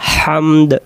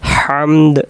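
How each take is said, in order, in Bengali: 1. শব্দটি স্পষ্ট শেষের d ধ্বনি দিয়ে শেষ হয়। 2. শব্দটি স্পষ্ট শেষের d ধ্বনি দিয়ে শেষ হয়।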